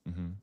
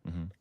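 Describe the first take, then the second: No difference in how they are said.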